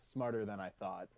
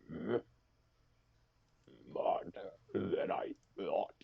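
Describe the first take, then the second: First: It is said in a normal speaking voice. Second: It is said in a put-on character voice.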